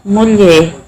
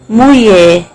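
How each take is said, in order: First: The word is said with every sound present. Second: The word is said with a sound dropped.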